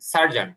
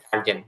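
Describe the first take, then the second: First: The last vowel falls between 'a' and 'o'. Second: The last vowel sounds like 'e'. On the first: "সার্জান বা জন এর মাঝামাঝি যেটা আছে" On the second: "এটা সার্জেনও ব্যবহার হয়"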